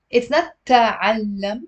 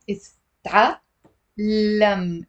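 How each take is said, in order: First: The mistaken تعلم, vowel after the t; wrong version. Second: تعلم slow and careful, t with no vowel straight into the ain; correct version. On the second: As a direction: model تعلم, clipped t then fatha on the ain. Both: Shown as a demonstration.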